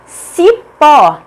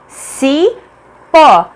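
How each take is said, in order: First: "Cipó" said briskly in two beats, strong pó; "Cipó" with emphatic final syllable; stressed last syllable. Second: "cipó" pulled apart, ci... pó; slowly separated syllables of "cipó". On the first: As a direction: announce "Cipó", landing hard on pó. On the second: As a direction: leave a long gap inside "cipó" before a strong pó. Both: Shown as a demonstration. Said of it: "pó, é a tônica".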